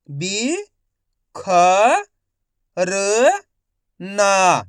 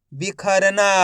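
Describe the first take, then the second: First: बि, ख, र, ना as separate sounds; long pause after each of बि, ख, र, ना; syllable by syllable. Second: बिखरना joined up; बिखरना in one unbroken piece; blended whole word. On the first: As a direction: sound out बिखरना one syllable at a time. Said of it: "एक अक्षर का उच्चारण करके". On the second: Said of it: "तो मिलके बन जाएगा". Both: Shown as a demonstration.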